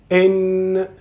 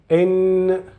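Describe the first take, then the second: Both takes have the same delivery.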